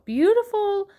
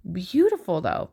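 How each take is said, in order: First: Beautiful sung out much higher and louder; delighted squeal. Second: Said in the usual way. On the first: Real, not acted. Admiring the yarn cakes, she gushes a high delighted beautiful. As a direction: gush over the word beautiful.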